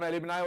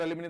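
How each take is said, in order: First: The word ends with an "eye" sound. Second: The word ends with an "ee" sound. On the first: "इसका उच्चारण एलिमनाई और एलिमनी दोनों होता है" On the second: "इसका उच्चारण एलिमनाई और एलिमनी दोनों होता है"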